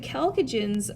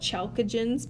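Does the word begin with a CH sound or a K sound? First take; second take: K sound; CH sound. First: The word begins with a hard K sound. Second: The word begins with a soft CH sound. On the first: The speaker calls it right. "you say it with a hard C here" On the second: The speaker calls it wrong. "some people want to call it chalcogens"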